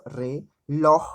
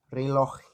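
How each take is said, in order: First: "reloj" broken in two, with a long loud LOJ; lengthened stressed syllable. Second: Said in the usual way. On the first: Shown as a demonstration. Teacher showing the tonic syllable, "reloj" with LOJ loud and drawn out. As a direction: say "reloj" as re, then a held LOJ. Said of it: "Tem uma perduração aí na questão da tonicidade". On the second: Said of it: "ele se pronuncia de uma forma rápida".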